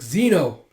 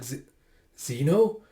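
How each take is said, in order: First: Louder, falling exclamation; cry of dismay. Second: Halting, rising question; shocked stammer. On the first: Companion cries out to fallen Zeno, dismayed call. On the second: Yona sees Zeno's blood, shocked stammer. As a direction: stumble into the name in disbelief. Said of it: "Everyone's just shocked and taken aback". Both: Acted.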